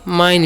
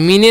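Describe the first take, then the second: First: The vowel sounds like 'eye'. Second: The vowel sounds like 'ee'. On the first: The speaker calls it right. "इसे हम लोग पढ़ते हैं माइन" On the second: The speaker calls it wrong. "मीने नहीं पढ़ना है"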